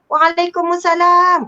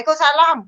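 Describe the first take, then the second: First: It is said in a cheerful tone. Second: It is said in an angry tone.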